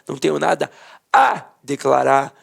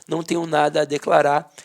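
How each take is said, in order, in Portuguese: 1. A palavra 'a' é dita em voz alta, quase gritada. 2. A palavra 'a' é dita de forma simples, sem ênfase.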